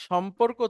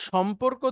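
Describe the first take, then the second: The two takes are said the same way.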